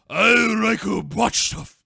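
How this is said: It is said in a put-on Japanese accent.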